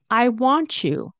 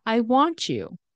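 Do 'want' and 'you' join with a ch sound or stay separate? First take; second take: ch sound; ch sound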